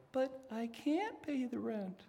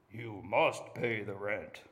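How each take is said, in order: First: High, helpless pleading voice; damsel in distress. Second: Low, slow menacing villain voice; mustache twirling villain. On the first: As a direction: wail it like a helpless heroine. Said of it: "you have to say". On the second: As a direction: growl it like a melodrama villain. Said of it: "So all the men say". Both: Shown as a demonstration.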